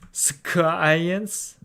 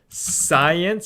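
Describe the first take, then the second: First: The word begins with a k sound. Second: The word begins with an s sound. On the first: The speaker calls it wrong. "it's not like science" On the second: The speaker calls it right. "but then in science"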